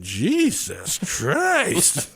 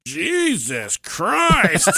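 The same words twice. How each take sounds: First: Put-on four-year-old exclaiming. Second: Put-on high, drawn-out little-kid Jesus Christ; four-year-old exclaiming. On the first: Daughter's retold exclamation, slow kid voice. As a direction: stretch it like an unimpressed kid. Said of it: "but she went". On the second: Four-year-old daughter reacting to the full container, slow kid voice. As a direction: stretch it out like an unimpressed toddler. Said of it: "and she goes".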